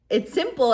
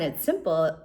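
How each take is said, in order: First: "simple" stressed, pitched higher and a bit louder; emphatic repeat. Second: Said in the usual way. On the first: Shown as a demonstration. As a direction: insist "It's simple," leaning on "simple".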